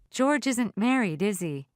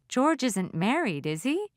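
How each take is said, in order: First: The voice falls at the end. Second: The voice rises at the end.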